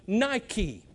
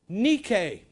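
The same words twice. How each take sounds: First: It is pronounced the usual English way. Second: It is pronounced the original Greek way. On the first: It names the shoe brand. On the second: It names the Greek word for victory.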